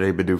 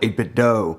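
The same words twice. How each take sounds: First: The last word ends like the word 'too'. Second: The last word ends like the end of 'Nintendo'. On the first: This is how the speaker has always said it. "I've called it eight-bit do" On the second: This is how many listeners say it. "you probably call it eight-bit do"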